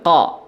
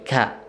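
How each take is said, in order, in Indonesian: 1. Vokalnya terdengar berat dan gelap. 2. Vokalnya terdengar ringan dan tipis. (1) "jangan ko" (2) "tapi ka"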